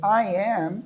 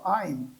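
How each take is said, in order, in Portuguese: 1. As duas palavras são ditas separadamente. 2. As duas palavras são juntadas em uma só. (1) "ao invés de dizer I am" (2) "eu posso dizer só I'm"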